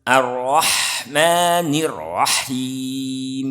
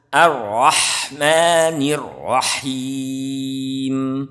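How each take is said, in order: Both takes have the same delivery.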